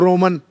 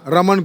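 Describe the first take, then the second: First: The first vowel is a rounded o sound. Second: The first vowel is an open a sound.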